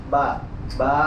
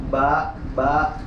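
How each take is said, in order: No difference in how they are said.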